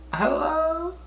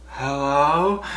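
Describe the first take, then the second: First: Squeaky high hello. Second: Said in the usual way. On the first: Retold or imitated. Answering the call.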